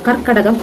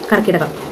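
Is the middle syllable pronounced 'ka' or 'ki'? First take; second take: ka; ki. First: The middle syllable has an 'a' vowel. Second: The middle syllable has an 'i' vowel. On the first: The speaker calls it right. "കർക്കടകം എന്നാണ് അതിന്റെ ശരിയായ ഉച്ചാരണ രീതി" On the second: The speaker calls it wrong. "തെറ്റല്ലേ?"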